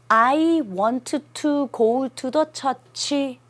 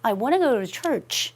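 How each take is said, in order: First: Every word is said clearly and separately. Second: The words are run together and reduced. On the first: Every listener can catch every word. "다 들리죠?" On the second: Listeners catch only a word or two. "이렇게 얘기합니다"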